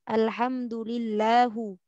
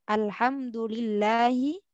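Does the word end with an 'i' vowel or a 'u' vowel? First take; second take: u vowel; i vowel. First: The word ends with a 'u' vowel. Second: The word ends with an 'i' vowel. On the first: The speaker calls it wrong. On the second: The speaker calls it right.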